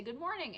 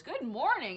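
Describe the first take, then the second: First: Said in the usual way. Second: Good morning tossed back louder, mock echo. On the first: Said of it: "and I say". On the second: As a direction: throw the greeting back at her, louder. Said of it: "And he goes".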